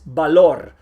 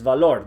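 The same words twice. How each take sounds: First: The word begins with a strong B sound. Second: The word begins with a V sound. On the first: The speaker calls it right. "you pronounce it strong like a B" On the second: The speaker calls it wrong. "That's wrong. There is no V sound in Spanish"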